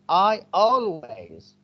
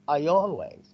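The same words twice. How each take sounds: First: The words are said separately without a y glide. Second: A y glide links the two words together. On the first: The speaker calls it wrong. "we don't say I always" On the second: The speaker calls it right. "we add the ye sound"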